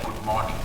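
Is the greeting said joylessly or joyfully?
joylessly. It is said flatly, without joy.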